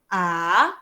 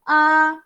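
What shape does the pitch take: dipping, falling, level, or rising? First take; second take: rising; level. First: The pitch rises a little upward. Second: The pitch stays level and steady. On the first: "naik sikit je" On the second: "Yang pertama senada daripada mulut keluar"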